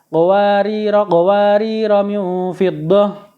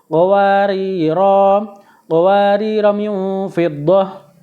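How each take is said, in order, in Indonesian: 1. Qawariro pertama berakhir dengan vokal pendek. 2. Qawariro pertama berakhir dengan vokal panjang. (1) "jika wasol, kedua roknya dibaca pendek" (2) "jika waqaf roknya dibaca panjang"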